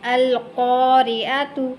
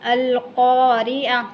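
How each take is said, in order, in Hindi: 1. शब्द एक पूरे -tu अक्षर से खत्म होता है। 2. शब्द एक हल्की मूक 'h' की आवाज़ से खत्म होता है। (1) "आगे है अल-क़ारिअतु" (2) "ता को हा में बदलते हुए हा साकिना पढ़ेंगे"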